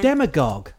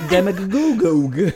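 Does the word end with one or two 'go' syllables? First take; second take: One; Two. First: The word ends with a single 'gogue' syllable. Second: The word ends with an extra 'go' before 'gogue'. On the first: The speaker calls it right. "that's how you say it" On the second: The speaker calls it wrong. "I was saying it"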